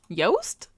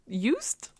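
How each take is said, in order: First: The vowel rhymes with toast. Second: The vowel rhymes with boost. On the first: "Rhymes with toast?" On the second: "this one's like boost"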